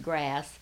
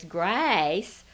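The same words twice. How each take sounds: First: The vowel is short and plain. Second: The vowel is long and drawn out. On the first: This is the ordinary way to say it. "which is grass" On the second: This is how a relative with a slow Southern accent says it. "my cousin still says grass ... she just drags out"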